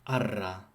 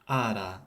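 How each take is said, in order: First: The r is a rolled trill. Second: The r is a single quick tap. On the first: The speaker calls it wrong. "and not" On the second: The speaker calls it right. "Ro should be a tap when between vowels"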